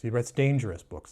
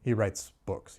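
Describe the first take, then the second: First: Dangerous leaned on with falling tune; stress on dangerous. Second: Said in the usual way. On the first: Shown as a demonstration. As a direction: make dangerous the heavy, ominous word.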